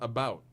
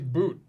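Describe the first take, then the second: First: The vowel sounds like 'ow', as in 'out'. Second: The vowel sounds like 'oo', as in 'boot'. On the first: This is the usual form of the word. "but it's about" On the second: This is how northern speakers say it. "They say boot"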